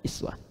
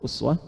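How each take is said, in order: First: The first vowel is a front i. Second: The first vowel is a rounded u. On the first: This follows another traditional reading of the verse. "bisa dibaca iswah riwayat Qalun atau Warsh dari Nafi'" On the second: This follows one traditional reading of the verse. "bisa dibaca uswah itu mengambil riwayat Hafiz dari Asim"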